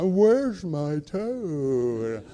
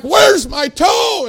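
First: Very slow, drawn-out groggy slur; going under sedation. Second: Loud, high, drawn-out holler; panicked yell. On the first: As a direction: let the words sag as the anesthetic takes hold. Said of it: "some nurse stuck a needle in my arm". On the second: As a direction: shout it in acted panic. Retells panicked yelling before sedation. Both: Retold or imitated.

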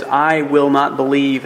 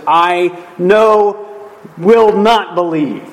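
First: Said in the usual way. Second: "no" and "not" hit hard, slowly; emphatic double negative. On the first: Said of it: "there's this emphatic doubt". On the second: Shown as a demonstration. Preacher showing Thomas's double negative, "no" and "not" emphatic. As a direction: punch "no", pause, then punch "will not believe" deliberately. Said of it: "you would say no two times".

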